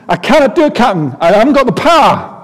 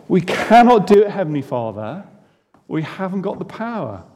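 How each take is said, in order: First: Put-on high, loud Scottish accent, exasperated; Scottish engineer at the end of his rope, much higher and louder. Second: Said in the usual way. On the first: Engineer Scotty protesting to his captain, in an exasperated Scottish accent. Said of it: "Scotty replies in an exasperated Scottish voice". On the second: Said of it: "that is what we feel like".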